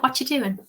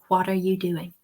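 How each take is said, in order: First: It is said quickly with 'are' dropped. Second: Every word is said, including 'are'. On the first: "if somebody is speaking to you really quickly" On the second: "you're modeling it correctly"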